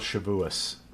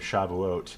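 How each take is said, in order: First: The word ends with an s sound. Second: The word ends with a t sound.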